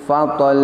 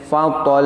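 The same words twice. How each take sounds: The two takes are said the same way.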